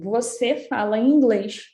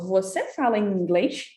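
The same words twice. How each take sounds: First: It is said with statement intonation. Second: It is said with question intonation. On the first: The speaker is asserting a fact. "eu estou afirmando" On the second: The speaker is asking whether it is true. "se eu quiser perguntar, eu falo ... mas eu mudo a entonação"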